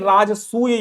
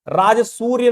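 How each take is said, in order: First: No 'r' sound follows the 'su' syllable. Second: An 'r' sound follows the 'su' syllable. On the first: The speaker calls it right. "राजसूय यज्ञ है" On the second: The speaker calls it wrong. "राजसूर्य नहीं"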